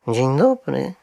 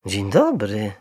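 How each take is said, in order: First: A slightly raised, careful greeting; clear, polite bear. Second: Mildly hesitant greeting; rather uncertain. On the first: Little bear greeting two strangers, polite and clear. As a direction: greet politely, each syllable distinct. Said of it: "rzekł cicho i wyraźnie". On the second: Mr Brown answering a polite bear, slightly uncertain. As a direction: return the greeting a touch unsurely. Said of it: "dość niepewnym głosem". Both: A narrator's reading.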